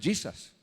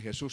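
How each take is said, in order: First: The word begins with a y sound. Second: The word begins with a throaty h sound. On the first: This is how it is said in other languages. "Se le da el sonido de Y" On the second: This is how it is said in Spanish. "no se dice Jesús en inglés"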